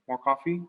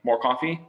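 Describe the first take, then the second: First: It sounds gentle and polite. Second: It sounds blunt, like a command. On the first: It comes across as a courteous offer to the guest. "very politely just saying" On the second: It comes across as an order to the guest. "just saying like"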